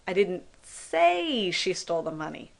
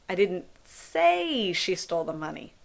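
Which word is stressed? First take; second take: didn't; didn't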